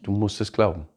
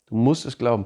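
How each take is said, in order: First: "glauben" weighted with a falling end; stress on glauben. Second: "musst" hit and falling; stress on musst. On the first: Preacher urging believers to trust, stress on "glauben". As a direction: land on "glauben". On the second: Preacher repeating the charge, stress on "musst". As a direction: punch "musst". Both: Shown as a demonstration.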